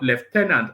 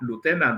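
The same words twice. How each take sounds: First: It is said the British way. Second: It is said the American way.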